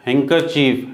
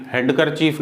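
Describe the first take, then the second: First: हैंकरचीफ with no d before the k; silent D. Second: हैंडकरचीफ as "hand-ker-chief", d heard; D wrongly sounded. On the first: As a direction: say हैंकरचीफ, d left out. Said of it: "ये यहाँ silent होगा". (हैंकरचीफ में डी silent) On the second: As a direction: pronounce the d in हैंडकरचीफ. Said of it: "हैंडकरचीफ नहीं". (हैंडकरचीफ में डी का गलत उच्चारण) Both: Shown as a demonstration.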